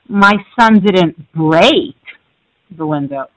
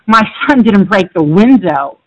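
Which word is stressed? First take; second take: break; window. First: The word "break" carries the stress. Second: The word "window" carries the stress. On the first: The window was damaged but not broken. "he just cracked it" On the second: Something other than the window was broken. "he broke the door"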